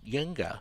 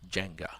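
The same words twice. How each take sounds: First: The word begins with a Y sound. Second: The word begins with a J sound. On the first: "the J is, you know, can be pronounced as a Y" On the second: "instead of"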